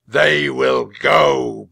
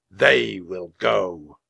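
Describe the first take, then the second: First: Slow, thunderous decree; huge, drawn-out knightly shout; booming. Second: Slow, weighty, projected verdict; measured knightly decree; slow pronouncement. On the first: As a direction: boom it out so the hall echoes. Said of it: "boomed the knight". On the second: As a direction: draw out each word solemnly. Knight chooses children, solemn slow verdict. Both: A narrator's reading.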